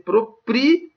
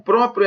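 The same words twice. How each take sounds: First: "proprio" slowly split as pro-PRI-o, higher on PRI; pronounced as hiatus. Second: Said in the usual way. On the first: Shown as a demonstration. Teacher showing why it is no hiatus, "proprio" drawn out as pro-PRI-o. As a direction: break "proprio" into three syllables, pro-PRI-o, stressing PRI. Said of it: "Porque se fosse hiato, ia ser". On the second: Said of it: "Porque se fosse hiato".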